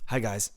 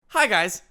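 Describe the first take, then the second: First: The greeting sounds grave and serious. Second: The greeting sounds light and playful.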